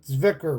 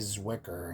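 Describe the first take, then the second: First: The name has a non-American, foreign-style pronunciation. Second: The name has a plain American English pronunciation. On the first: "which I suspect is pronounced as" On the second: "other Americans just say Zwicker"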